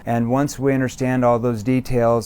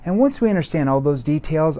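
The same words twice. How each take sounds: First: It sounds flat, scripted and robotic. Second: It sounds warm, concerned and empathetic. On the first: The speaker sounds like a typical salesperson. The speaker calls it wrong. "the wrong tone ... you sound like a scripted robot" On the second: The speaker cares about the listener. The speaker calls it right. "I'm showing empathy. It's like a, a concerned tone"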